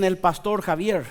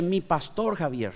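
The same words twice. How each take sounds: First: Said in the usual way. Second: "mi" leaned on, softer and lower, owning the word; stress on mi. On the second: Shown as a demonstration. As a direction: say "mi pastor Javier" with weight on "mi". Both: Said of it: "pero es diferente cuando es".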